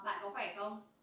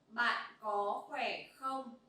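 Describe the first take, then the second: First: It is said at a faster pace. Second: It is said at a normal, slower pace.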